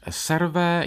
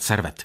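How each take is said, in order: First: The name ends without a final t sound. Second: The name ends with a clear final t sound. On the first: "to vysvětlu francouzsky, polikám to, to není moje špatná výslovnost" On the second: "budu říkat Servet"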